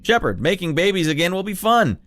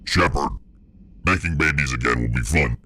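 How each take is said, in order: First: It is read in his own normal voice. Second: It is read in a put-on character voice.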